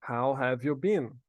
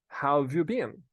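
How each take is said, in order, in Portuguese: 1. A palavra 'have' é pronunciada por completo. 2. A palavra 'have' é abreviada para o som de 've.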